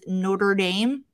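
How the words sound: It is said with a Midwestern American pronunciation. The speaker calls it right. "you say it very Midwest"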